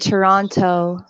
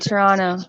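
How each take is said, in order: First: The second T sound is clearly pronounced. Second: The second T sound is dropped. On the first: The speaker is an outsider. "If you're not from Canada, you say Toronto. ... They emphasize the T" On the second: The speaker is a local Canadian. "If you're from Canada, you say Toronto"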